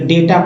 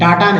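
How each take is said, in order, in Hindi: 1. पहला स्वर 'ay' जैसा सुनाई देता है। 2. पहला स्वर 'ah' जैसा सुनाई देता है। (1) "इसलिए डेटा पढ़ते हैं" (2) "डाटा नहीं"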